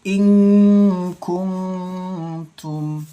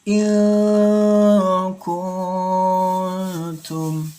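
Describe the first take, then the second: First: The nasal hum on the n is heavy. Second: The nasal hum on the n is light. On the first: The speaker calls it wrong. "didengungkannya berlebihan" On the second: The speaker calls it right. "didengungkannya tipis, jangan tebal"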